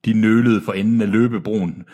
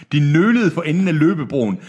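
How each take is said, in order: First: Said in the usual way. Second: "De nølede for enden af løbebroen" pitched higher; emphatic re-reading. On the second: A narrator's reading. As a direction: present "nølede" with a raised, emphatic lift. Re-reads sentence flagged as winner.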